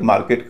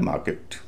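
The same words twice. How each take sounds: First: "मार्केट" with a sounded r and full e in the last syllable; common mispronunciation. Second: "मार्केट" with a light short i in the last syllable, ending "किट". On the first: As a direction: say "मार्केट" ending in a clear "केट". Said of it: "इसे कई लोग मार्केट कहते हैं". ("मार्केट" में र और पूरा ए बोलें) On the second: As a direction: say "मार्केट" as "माकिट", weak final vowel. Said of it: "उसका उच्चारण हो रहा है छोटी ई". ("मार्केट" के अंत में हल्की छोटी ई) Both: Shown as a demonstration.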